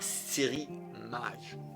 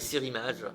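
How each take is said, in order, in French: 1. Elle est dite lentement, chaque mot est bien articulé. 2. Elle est dite rapidement, les mots sont collés les uns aux autres. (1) "j'articule trop" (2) "dit rapidement, donc je le dis rapidement"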